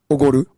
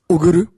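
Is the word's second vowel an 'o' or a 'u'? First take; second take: o; u. First: The second syllable is said with an 'o' vowel. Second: The second syllable is said with a 'u' vowel. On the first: This is the standard form of the word. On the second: This is how people from the north say it.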